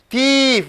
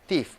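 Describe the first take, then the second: First: The vowel is held long, not reduced. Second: The vowel is clipped short before the f. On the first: The speaker calls it wrong. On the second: The speaker calls it right. "You have to reduce the vowel sound"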